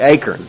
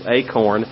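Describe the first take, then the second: First: The word is said with a Tennessee Southern pronunciation. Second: The word is said with a standard pronunciation. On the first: The speaker calls it wrong. "I'm from Tennessee and then we say acorn" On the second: The speaker calls it right. "a proper pronunciation of that word probably is acorn"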